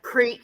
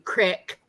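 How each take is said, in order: First: The word has a long 'ee' vowel. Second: The word has a short 'i' vowel. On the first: This is the standard form of the word. "certain words, like creek then became crick" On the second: This is the regional accent's form of the word. "then became crick"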